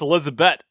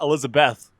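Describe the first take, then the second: First: The name ends with a plain t sound. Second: The name ends with a th sound. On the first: The speaker calls it right. "That's Elizabeth, ... they drop the H" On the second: The speaker calls it wrong. "not Elizabeth. Don't get it wrong"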